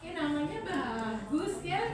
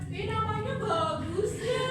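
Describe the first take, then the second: First: The praise sounds calm with moderate intonation. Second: The praise sounds over-the-top and gushing. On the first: The praise is sufficient and sincere. The speaker calls it right. "Cukup, ... Ada intonasinya" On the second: The praise is overdone. The speaker calls it wrong.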